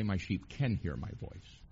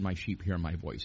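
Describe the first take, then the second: First: "can" lifted and stressed; rising stress on "can". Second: Said in the usual way. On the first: Shown as a demonstration. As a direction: point out the wrong word "can". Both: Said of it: "He did not say".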